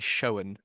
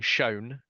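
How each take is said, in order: First: It is said with an audible W glide. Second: It is said without an extra W glide. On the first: "some of them will enunciate W's" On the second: "rather than saying"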